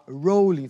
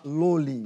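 First: The word begins with an R sound. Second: The word begins with an L sound. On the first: "ao invés de falar rolling" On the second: "os asiáticos falam L ao invés de R"

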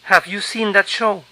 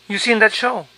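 First: The question starts with a spoken 'have'. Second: The question starts without 'have'.

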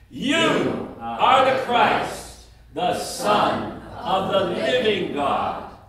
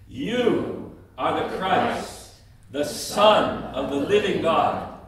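First: It is said at the loudest volume. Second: It is said at a medium, louder volume. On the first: "each time louder than the other" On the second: "each time louder than the other"

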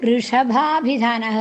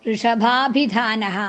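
Both takes have the same delivery.

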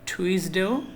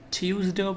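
First: It begins with a 'too' sound. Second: It begins with a 'tyoo' sound. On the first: "আবার টুইজডেও পড়া যায়" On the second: "টিউজডেও পড়া যায়"

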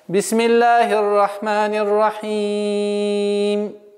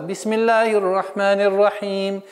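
First: The final long vowel is held four counts. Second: The final long vowel is held two counts. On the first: "выберем 4 огласовки для полноты произношения" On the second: "Если мы применяем правило удлинения два раза"

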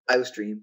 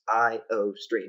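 First: It is blended together as a single word. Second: It is said as three separate parts. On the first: The speaker calls it wrong. "It's not IOStream, one word" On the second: The speaker calls it right. "It's three different words"

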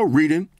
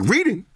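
First: It is said calmly, as a plain statement. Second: It is said with surprise, rising like a question. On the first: The activity is stated as ordinary. "He was like, you know" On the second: The activity is found hard to believe. "Like, it's a shock"

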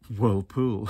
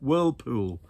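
First: The stress is on the second syllable. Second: The stress is on the first syllable. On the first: The speaker calls it wrong. "I don't know why I said it like that" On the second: The speaker calls it right. "It's a compound noun"

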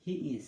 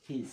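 First: It is said as two separate words. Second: It is said as one contracted word. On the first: "হি ইজ এর পরিবর্তে" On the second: "এটা উচ্চারণ হবে হিজ"

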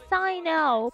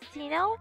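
First: The name is said with an English-style pronunciation. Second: The name is said with a non-English pronunciation. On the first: The speaker calls it wrong. "is not actually pronounced like Sino" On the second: The speaker calls it right. "it's more pronounced like Sino, cause you know, Sino's name is not actually an English name"

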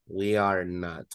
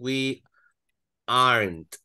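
First: The words are said in full as 'are not'. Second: The words are contracted into 'aren't'.

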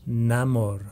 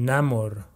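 No difference in how they are said.

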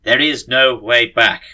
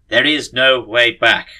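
First: It is read in a put-on character voice. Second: It is read in a put-on character voice.

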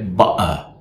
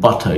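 First: The T is replaced by a glottal catch in the throat. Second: The T is a clear, released T sound. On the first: "you say butter" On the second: "instead of saying butter"

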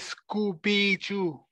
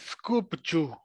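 First: The word is said in a drawn-out form. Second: The word is said in a clipped form. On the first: This is how most people say it in the dialects. "especially the young people, they say Scooby-Joo" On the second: This is how the word is written. "it's written S hyphen K, K-U-B-J-U. It's skubju"

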